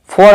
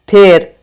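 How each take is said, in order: First: The vowel is a rounded 'aw' sound. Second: The vowel is an 'e' sound as in bed. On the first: "आप फॉर नहीं पढ़ सकते हो" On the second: "फार को अगर आप फेर पढ़ोगे"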